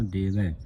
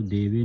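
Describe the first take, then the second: First: ਦੇਵੈ with an open "ae" ending; correct vowel. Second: ਦੇਵੇ with a closed "ay" ending; wrong vowel. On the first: Teacher corrects the reading, ਦੇਵੈ with open ai. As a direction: widen the end of ਦੇਵੈ, letting it fall. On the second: Teacher shows the misreading, ਦੇਵੇ with closed e. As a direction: end ਦੇਵੇ on a narrow e. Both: Shown as a demonstration. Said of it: "ਦੇਵੇ ਨਹੀਂ ਪੜ੍ਹਨਾ".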